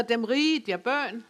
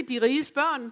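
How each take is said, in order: First: Dem rige der børn as dialect possessive; Jutlandic genitive word order. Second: Said in the usual way. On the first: Shown as a demonstration. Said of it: "Det hedder". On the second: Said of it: "det hedder ikke".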